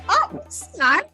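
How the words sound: It sounds incredulous and doubting.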